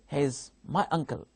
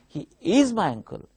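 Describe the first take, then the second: First: The stress falls on the word uncle. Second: The stress falls on the word is. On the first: It is a plain statement of fact. "Here, stress is on uncle" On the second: It answers someone who denies the relation. "Here stress is on is"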